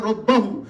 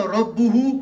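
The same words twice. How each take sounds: First: رۄبہُ said as "rab-ba-hu"; a after the doubled b in رۄبہُ; vowel with zabar. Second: رۄبُہُ said slowly as "rab-bu-hu"; u after the doubled b in رۄبُہُ; vowel with pesh. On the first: Teacher showing the other Quran reading, رۄبہُ with a "ba" middle. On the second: Teacher showing careful Quran reading, رۄبُہُ with a "bu" middle. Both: Shown as a demonstration. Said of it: "اگر اورٕ یورٕ پیش زبر".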